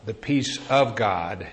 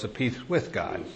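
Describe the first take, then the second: First: "of" picked out in "peace of God"; slow phrase, leaning on the word "of"; stress on "of". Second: "with" picked out, the phrase softer; stress on "with". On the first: Preacher asking listeners about their lives, stress on "of". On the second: Preacher setting one kind of peace against another, stress on "with". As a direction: lean on "with" in a lowered volume. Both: Real, not acted.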